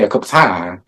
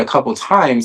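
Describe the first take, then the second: First: It is said in a country accent. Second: It is said in a neutral, trained accent. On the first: This is the speaker's natural way of talking. "I say a couple times... that's how like I really talk" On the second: This is not the speaker's natural way of talking. "I don't say"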